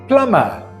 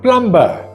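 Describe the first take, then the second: First: The b sound in the middle is silent. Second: The b sound in the middle is pronounced. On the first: The speaker calls it right. "The P in this word is silent, so it's plumber" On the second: The speaker calls it wrong. "not plumber"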